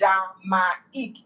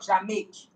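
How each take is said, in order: First: The two vowels are said as separate syllables. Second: The two vowels are merged into one sound. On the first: The speaker calls it right. "so you're now pronouncing I E" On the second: The speaker calls it wrong. "instead of"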